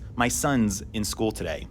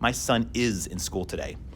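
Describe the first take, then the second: First: Son and is merge into one syllable, sons. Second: Son and is are said as separate words.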